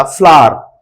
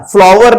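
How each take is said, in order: First: "फ्लावर" as FLAA-ar, w dropped; no v sound inside "फ्लावर"; correct pronunciation. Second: "फ्लावर" with the v/w sounded; wrong pronunciation. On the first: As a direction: say "फ्लावर" like flaar, falling. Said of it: "फ्लावर होता है". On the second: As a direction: say "फ्लावर" as FLAA-var. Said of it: "फ्लावर नहीं होता". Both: Shown as a demonstration.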